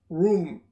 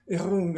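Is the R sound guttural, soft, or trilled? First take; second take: soft; guttural. First: The R is soft, with no roll or rasp. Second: The R is made deep in the throat. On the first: "in English is" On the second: "the R in French is here"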